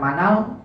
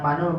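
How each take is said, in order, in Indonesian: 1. Vokal penghubung setelah man adalah a. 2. Vokal penghubung setelah man adalah u. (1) "bukan manal" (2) "bukan manul"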